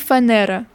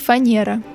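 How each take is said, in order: First: The n before the e is hard. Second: The n before the e is soft. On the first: This is the older way of saying it. "Когда-то говорили" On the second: This is the current way of saying it. "Теперь"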